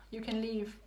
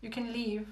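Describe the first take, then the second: No difference in how they are said.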